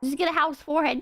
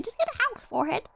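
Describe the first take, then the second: First: Said in the usual way. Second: High-pitched, hurried rerun of the phrase; higher, quicker repeat. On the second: Pretend.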